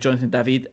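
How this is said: The name is said with a French pronunciation.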